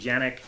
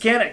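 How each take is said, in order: First: The name begins with a J sound. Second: The name begins with a hard K sound. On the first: This is how it is said in Turkey. "in Turkey, a C does sound like a J. So in Turkey, it would be Janik" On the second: This is how it is said in America. "In the U S, it's Canik because C sounds like a C"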